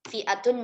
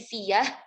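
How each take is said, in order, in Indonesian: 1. Terdengar hamzah di tengah. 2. Bunyi y menggantikan hamzah.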